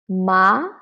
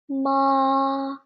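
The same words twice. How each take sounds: First: The pitch rises from middle to high. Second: The pitch stays high and level. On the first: "the second tone. From three to five. It is a rising tone" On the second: "So it is high and flat"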